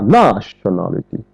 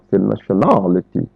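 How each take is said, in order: First: The stress falls on a syllable other than the third. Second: The stress falls on the third syllable, al. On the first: The speaker calls it wrong. "On ne dit pas nationality" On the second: The speaker calls it right. "L'accent est mis sur le ality"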